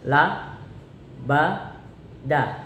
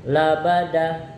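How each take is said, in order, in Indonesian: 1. Kata itu dibaca pelan, suku kata demi suku kata. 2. Kata itu dibaca dengan kecepatan normal.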